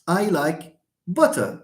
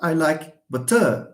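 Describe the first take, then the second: First: The stress is on the first syllable. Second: The stress is on the second syllable. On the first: The speaker calls it right. "stress falls on the first syllable" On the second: The speaker calls it wrong. "It's not"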